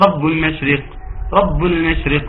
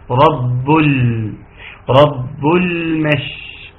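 First: Quick رب المشرق with the ل passed over short; wrongly rushed lam. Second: Very slow «رب المش» with a sustained ل; correct clear lam. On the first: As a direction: say رب المشرق briskly, without holding ل. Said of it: "خطأ، خطأ". (نطق خاطئ سريع للام في «رب المشرق») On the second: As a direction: hold the ل and spread the ش in «رب المش». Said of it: "والصح إن شاء الله". (إظهار اللام وتفشي الشين في «رب المش» ببطء) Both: Shown as a demonstration.

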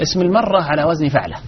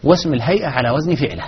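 First: فعلة said fa'la, with an a; fatha on first letter. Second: فعلة said fi'la, with an i; first vowel of فعلة as short i; kasra on first letter. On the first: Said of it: "إذا فتحت أول فهو اسم مرة". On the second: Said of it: "بكسر أوله". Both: Shown as a demonstration.

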